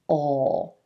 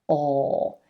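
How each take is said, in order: No difference in how they are said.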